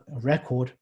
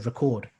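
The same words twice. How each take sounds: First: The stress is on the first syllable. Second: The stress is on the second syllable. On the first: It is used as a noun. "when you use it as a noun, then the stress would be... on the first syllable" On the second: It is used as a verb. "the moment you turn these into verbs, the stress moves... into the next syllable"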